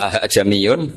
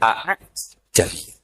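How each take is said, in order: First: The second glottal stop is softened and eased. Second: Both glottal stops are pronounced fully. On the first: "pilihannya mesti tashil" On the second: "Kikil hamzaten ... Harusnya bacanya ya a jamiyun"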